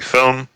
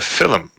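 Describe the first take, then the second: First: The word is said with plain English vowel sounds. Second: The word is said with Irish vowel sounds. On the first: "some people like me who might say film" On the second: "other people who call it a film"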